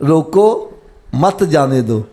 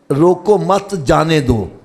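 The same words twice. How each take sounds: First: روکو said alone with a rise, then a pause, then مت جانے دو; pause after روکو. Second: روکو مت run together, then a pause after مت before جانے دو. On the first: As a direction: break right after روکو so it becomes a command. (روکو کے بعد وقفہ، پھر مت جانے دو) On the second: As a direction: say روکو مت as one unit, break, then جانے دو. (روکو مت کے بعد وقفہ، پھر جانے دو) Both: Shown as a demonstration. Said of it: "اب میں تھوڑا سا وقف آگے پیچھے کرنا".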